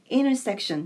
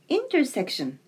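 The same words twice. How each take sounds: First: The T sound is dropped after the N. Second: The T sound is clearly pronounced.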